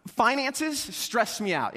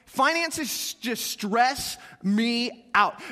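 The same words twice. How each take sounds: First: Slow confession. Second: Drawn out very slowly. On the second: Pastor confessing money stress to congregation, drawn out very slowly. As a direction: stretch every word of "Finances just stress me out" long and heavy. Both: Shown as a demonstration. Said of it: "Anybody else in that boat?".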